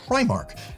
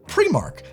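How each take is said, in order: First: It uses the mainland British pronunciation of the name. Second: It uses the Northern Irish pronunciation of the name. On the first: The speaker is from England, Scotland or Wales. "If you're in mainland U K, ... you're primarily going to be pronouncing it Primark" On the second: The speaker is from Northern Ireland. "if you're from Northern Ireland, it's pronounced Primark"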